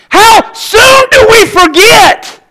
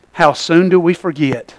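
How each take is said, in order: First: High, slow fiery call; preached high and slow. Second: Low, soft repeat of the question; quiet echo. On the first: Preacher to congregation, slow high call. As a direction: stretch it out, preaching. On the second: Preacher repeating to congregation, soft and low. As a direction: let it drop to a hush. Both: Shown as a demonstration.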